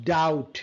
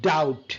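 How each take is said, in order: Both takes have the same delivery.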